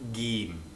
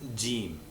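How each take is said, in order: First: The word begins with a hard G sound. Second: The word begins with a soft J sound. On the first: "In Egyptian, it's pronounced Gim" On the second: "that's how it's pronounced in Standard Arabic"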